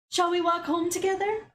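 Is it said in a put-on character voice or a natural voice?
natural voice. It is said in the speaker's natural voice.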